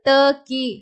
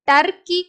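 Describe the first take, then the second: First: The first consonant is said softly. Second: The first consonant is pressed hard. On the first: The speaker calls it right. "ட அழுத்தக்கூடாது, இல் சாஃப்டா சொல்லணும்" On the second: The speaker calls it wrong. "டர்கி கிடையாது, டர்கின்னு படிக்கூடாது"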